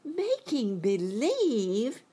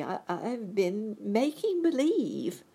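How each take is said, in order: First: High, loud, drawn-out disbelief; astonished cry. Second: High, slow, hesitant admission; meek confession. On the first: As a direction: cry it out slowly, incredulous. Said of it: "cried Dorothy". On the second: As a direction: confess meekly, with a stammer. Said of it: "said the little man meekly". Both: A narrator's reading.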